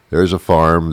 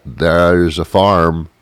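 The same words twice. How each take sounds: First: Said in the usual way. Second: Slow, stretched-out "There's a farm."; drawn-out emphasis. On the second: Pretend. Marveling at a farm, slow and stretched. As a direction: lean on "farm" and stretch the line slowly.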